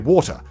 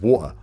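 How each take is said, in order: First: The t sound in the middle is clearly pronounced. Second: The t sound in the middle is dropped. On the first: This is clearer for everyone to hear. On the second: This is how people speak where the speaker grew up.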